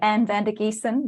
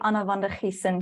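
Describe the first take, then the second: First: The name has an Australian English pronunciation. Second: The name has a Dutch pronunciation with guttural G. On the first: "that's how I would say it as an Australian" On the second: "the Dutch would probably say Anna van der Giesen with the, the Dutch G"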